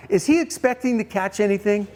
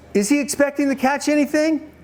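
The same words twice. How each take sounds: First: Said in the usual way. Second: "Is he expecting to catch anything" held high throughout; pointed repeated question. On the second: Real, not acted. Preacher pressing congregation for an answer, "anything" pitched high.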